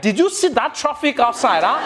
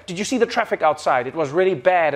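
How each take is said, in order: First: Higher, louder Nigerian accent on "Did you see that traffic outside, huh". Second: Plain, even English delivery of "Did you see the traffic outside"; understated English small talk; stiff plain English. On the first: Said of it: "when Nigerians come inside". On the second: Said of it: "If in English, you're just like". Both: Shown as a demonstration.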